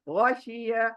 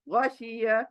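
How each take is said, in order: The two takes are said the same way.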